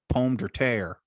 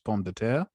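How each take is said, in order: First: It is said with a thick Southern American accent. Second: It is said with a French pronunciation. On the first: "used to pronounce it ... Thick ass accent" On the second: "the French word for potato, which is"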